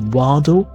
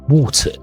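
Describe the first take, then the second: First: The middle T sounds like a soft D. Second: The middle T is a clear T. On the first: "Americans tend to say waddle" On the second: "British tend to say water. Water with a T sound"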